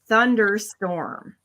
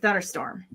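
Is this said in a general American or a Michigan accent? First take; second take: general American; Michigan. First: It is said in a careful general American accent. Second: It is said quickly in a clipped Michigan accent. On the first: "A normal person says" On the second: "In Michigan, we say"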